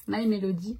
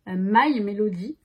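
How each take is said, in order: First: Said in the usual way. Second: "My Melody" said slowly and louder, naming it carefully; "My Melody" stretched out and stressed as the right name; careful correction. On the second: Shown as a demonstration.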